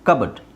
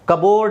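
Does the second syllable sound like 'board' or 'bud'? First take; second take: bud; board. First: The second syllable sounds like 'bud'. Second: The second syllable sounds like 'board'. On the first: The speaker calls it right. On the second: The speaker calls it wrong. "ಕಬೋರ್ಡ್ ಅಲ್ಲ"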